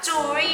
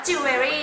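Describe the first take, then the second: First: "jewelry" in two syllables, like "joo-ree"; correct pronunciation. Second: "jewelry" in three syllables, like "jew-e-ry"; common mispronunciation. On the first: Teacher correcting learners' habit, "jewelry" pronounced as two syllables. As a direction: run "jewelry" together, dropping the middle syllable. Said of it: "จริงๆแล้วมันอ่านว่า jewelry". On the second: Teacher showing learners the common misreading, "jewelry" mispronounced with three syllables. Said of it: "คนจะอ่านว่า jewelry ใช่ไหม". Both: Shown as a demonstration.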